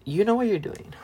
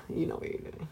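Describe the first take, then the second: First: Said in the usual way. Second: A breathy, voiceless whisper. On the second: Shown as a demonstration. Friend repeating the point to her friend, whispered. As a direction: lean in and whisper it knowingly. Repeats the line, then hushes it.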